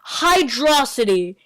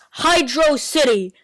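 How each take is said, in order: First: The name is blended into one word. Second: The name is said as two separate words. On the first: The speaker calls it wrong. "It's not Hydrocity" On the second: The speaker calls it right. "It's Hydro City"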